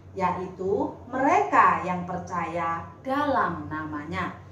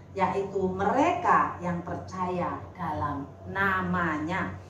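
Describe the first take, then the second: No difference in how they are said.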